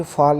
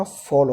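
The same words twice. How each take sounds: First: "फॉल" said as faal, with an open aa; wrong long-a vowel. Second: "फॉल" with a rounded aw vowel; correct rounded vowel. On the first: Teacher warning students how not to say it, wrong long-a vowel. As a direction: put an aa in "फॉल". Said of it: "ध्यान रखिए फॉल नहीं होता". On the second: Teacher giving students the right form, rounded vowel. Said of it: "फॉल होता है". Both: Shown as a demonstration.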